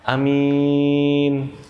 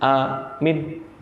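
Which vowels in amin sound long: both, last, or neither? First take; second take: last; neither. First: Only the second vowel is drawn out. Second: Both vowels are short and clipped. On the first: It means an honest person. "yang panjang itu di belakang" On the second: It means a guard or security. "Minnya pendek. ... Ini yang benar-benar habis"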